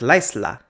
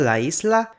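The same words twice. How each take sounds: First: The vowels merge into one syllable. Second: The vowels are kept in separate syllables.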